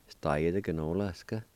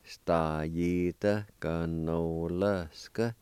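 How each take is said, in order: First: Said in the usual way. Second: Stajita ganolska drawn out very slowly, rising on Stajita; very slow model of Stajita ganolska; slow teaching pronunciation. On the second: Shown as a demonstration. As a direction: stretch Stajita ganolska out for learners to copy. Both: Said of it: "First part is pronounced like this".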